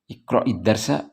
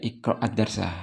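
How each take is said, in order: First: The linking vowel before 'darsa' is i. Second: The linking vowel before 'darsa' is a. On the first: The speaker calls it right. "kita ubah menjadi kasrah harokatnya" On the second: The speaker calls it wrong. "kenapa kok iqra'i enggak iqra'ad darsa"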